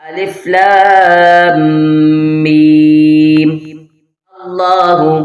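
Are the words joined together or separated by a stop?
stop. There is a stop before the last word.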